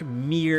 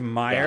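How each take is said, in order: First: The name has a single 'eer' vowel. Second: The name has an 'eye' vowel, like 'myer'. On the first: The speaker calls it right. "I better be saying this right. Dark Mir" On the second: The speaker calls it wrong. "as opposed to Meyer"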